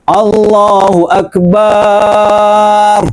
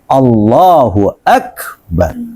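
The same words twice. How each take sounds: First: The vowel after the b is drawn out long. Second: The vowel after the b is kept short. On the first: The prayer becomes invalid. The speaker calls it wrong. "kalau Allahu Akbar dipanjangin A-nya, maka sholatnya tidak sah" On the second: The prayer is valid. The speaker calls it right. "Ini yang benar sudah begitu"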